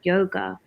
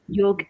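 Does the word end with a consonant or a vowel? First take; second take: vowel; consonant. First: The word ends with a final vowel sound. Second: The word ends on a consonant, no final vowel. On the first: The speaker calls it wrong. "I'm saying it wrong" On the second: The speaker calls it right. "it should be called yog"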